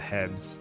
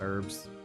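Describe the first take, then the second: First: It has a hard H and no R. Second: It has an R sound.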